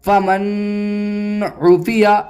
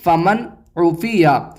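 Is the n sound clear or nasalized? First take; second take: nasalized; clear. First: The n sound is held with nasalization. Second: The n sound is clear, without nasalization. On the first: The speaker calls it wrong. "इस तरह नहीं पढ़ेंगे" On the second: The speaker calls it right. "बल्कि इसे इस तरह पढ़ेंगे"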